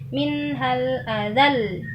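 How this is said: The final syllable is pushed up in pitch. The speaker calls it right. "tapi dinabarkan"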